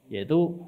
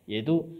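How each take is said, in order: No difference in how they are said.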